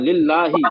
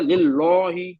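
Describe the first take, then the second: First: The L sound is thin and light. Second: The L sound is heavy and full-mouthed. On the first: The speaker calls it right. "बारीक पढ़ना है" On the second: The speaker calls it wrong. "हमने मोटा पढ़ा लिल्लाही पढ़ दिया, गलत कर दिया"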